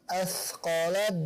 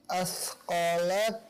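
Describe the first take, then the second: No difference in how they are said.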